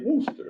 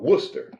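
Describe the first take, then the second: First: The name rhymes with rooster. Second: The name does not rhyme with rooster. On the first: This is how outsiders say it from the spelling. The speaker calls it wrong. "we say Worcester, like rooster" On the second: This is how locals say it. The speaker calls it right. "But they say uh, Worcester"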